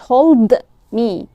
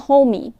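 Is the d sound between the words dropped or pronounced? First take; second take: pronounced; dropped. First: The d sound between the words is clearly said. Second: The d sound between the words is left out. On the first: The speaker calls it wrong. "مش hold me" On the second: The speaker calls it right. "homey مش hold me"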